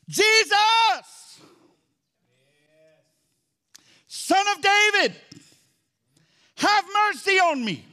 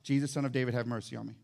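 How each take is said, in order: First: It is shouted loudly, like a real cry. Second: It is read quietly, without any shouting.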